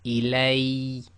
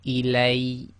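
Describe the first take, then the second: The two takes are said the same way.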